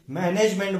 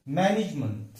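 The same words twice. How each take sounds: First: मैनेजमेंट with full "-nej-MENT"; common mispronunciation. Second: मैनेजमेंट as "MAN-ij-munt", weak ending; correct pronunciation. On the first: Teacher quoting how people say it, wrong pronunciation. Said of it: "हम उसे मैनेजमेंट बोलते हैं". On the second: Teacher giving the correct word, correct pronunciation. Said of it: "correct उच्चार क्या है". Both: Shown as a demonstration.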